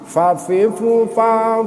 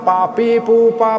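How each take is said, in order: First: Each syllable starts with lip-on-teeth f. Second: Each syllable starts with closed-lips p. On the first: The speaker calls it right. "bibir yang bawah bertemu dengan ujung gigi depan atas" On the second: The speaker calls it wrong. "bukan pa pi pu pa"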